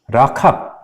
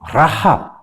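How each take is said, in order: First: The middle consonant is a hard k sound. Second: The middle consonant is a throaty sound between h and k. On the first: The speaker calls it wrong. "너무 너 캅 그러면 안 되고" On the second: The speaker calls it right. "히읗하고 키읔 사이 발음이에요"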